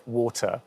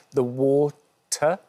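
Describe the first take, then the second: First: "water" ending on a plain vowel, no R; no final R. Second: "water" very slowly, with a strong, crisp T. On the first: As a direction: come lightly off the end of "water", without R. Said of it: "I just come off of it". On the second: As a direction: stretch "water" out and hit the T hard. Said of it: "we're really finding a strong T". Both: Shown as a demonstration.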